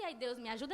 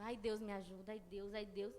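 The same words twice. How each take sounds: First: Said in the usual way. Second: Soft moaning "ai, Deus", a touch of a whimper; a worried complaint breathed out softly; whiny lament. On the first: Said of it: "achando que esse". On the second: Retold or imitated. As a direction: moan it as a fretful lament, not a prayer. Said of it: "mas uma lamúria".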